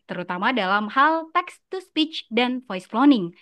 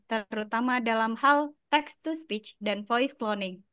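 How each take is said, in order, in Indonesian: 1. Dibacakan dengan intonasi dan penekanan yang dinamis. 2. Dibacakan dengan datar, intonasinya sedikit. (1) "dia lebih berdinamika, intonasi, dan main rasa" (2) "Cenderung datar dan cenderung baca"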